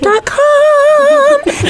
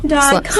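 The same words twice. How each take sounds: First: It is spoken in a higher, lighter head voice. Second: It is spoken in a low, resonant chest voice. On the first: "That's the head voice" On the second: "My chest voice"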